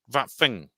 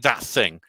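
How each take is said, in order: First: The th sounds are replaced by v and f. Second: The th sounds are kept as th. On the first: This is the newer urban northern habit. "They talk like that, and they they they talk about that thing" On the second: This is the traditional way of saying it. "They don't say that thing"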